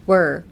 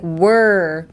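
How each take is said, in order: First: Short "Were" kept inside the mouth; held-in were. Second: "Were" long and pushed forward. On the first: Teacher showing the sound in your mouth, short "Were". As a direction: say "Were" compactly, resting back toward the throat. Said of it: "in your mouth". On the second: Teacher showing what to avoid, over-pushed "Were". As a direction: shove the "Were" sound out, drawn out. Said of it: "Don't be like". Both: Shown as a demonstration.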